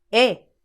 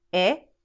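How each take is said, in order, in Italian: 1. La vocale è con accento. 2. La vocale è senza accento. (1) "E con accento" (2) "E senza accento"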